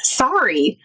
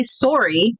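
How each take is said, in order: First: "sorry" with an open first vowel, like SAR-ee; American sorry. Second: "sorry" with a rounded first vowel, like SORE-ee; Canadian sorry. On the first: Showing Canadians how Americans sound, "sorry" as SAR-ee. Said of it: "it sounds to you guys when you hear". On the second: American showing Canadians their own word, "sorry" as SORE-ee. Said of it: "The way that you guys say sorry". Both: Shown as a demonstration.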